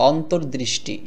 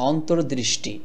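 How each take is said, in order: Both takes have the same delivery.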